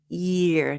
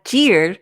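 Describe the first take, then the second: First: It begins with a soft 'y' sound. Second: It begins with a hard 'j' sound. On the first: The speaker calls it right. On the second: The speaker calls it wrong.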